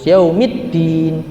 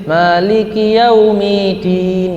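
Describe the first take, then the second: First: "Yaumiddin" with "dd" clearly held; correct doubled d. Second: "Yaumiddin" slow with a single d; wrong, tasydid dropped. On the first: Teacher correcting the recitation, double d. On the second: Teacher showing the mistake to avoid, single d. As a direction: chant it but let the double d slip. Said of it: "Jangan sampai". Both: Shown as a demonstration.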